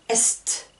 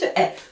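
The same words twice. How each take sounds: First: A final consonant sound is pronounced. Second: It ends on the vowel, no final consonant. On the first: The speaker calls it wrong. "je n'entends pas est ou s, non" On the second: The speaker calls it right. "juste est"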